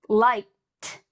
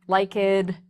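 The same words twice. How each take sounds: First: The ending is a strong t sound. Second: The ending is not a plain t sound. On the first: The speaker calls it right. "I just made that strong t sound" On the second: The speaker calls it wrong. "notice I did not say"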